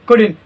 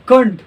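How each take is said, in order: First: The middle syllable is fully pronounced. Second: The middle syllable is cut short and reduced. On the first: The speaker calls it wrong. "कुडिन नहीं होता" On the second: The speaker calls it right. "कुंड होता है"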